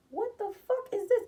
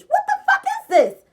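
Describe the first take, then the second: First: High, puzzled what-is-this; stunned disbelief. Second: Much higher, louder, slow, laughing it out; can't believe it, cracking up; laughing disbelief. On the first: Reading a contract handed over by her, incredulous. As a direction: squint at the paper in disbelief. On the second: Realizing the paper is a contract, laughing disbelief. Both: Retold or imitated.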